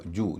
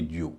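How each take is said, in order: First: जू said as "joo", pure oo; no y-glide in जू, straight j to oo; correct oo sound. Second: ज्यू said as "jyoo"; wrong-example ज्यू with a "yoo" ending; mistaken y-glide. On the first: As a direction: model जू as "joo". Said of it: "उच्चारण होगा जू". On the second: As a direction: slip a y between j and oo in ज्यू. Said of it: "न कि ज्यू". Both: Shown as a demonstration.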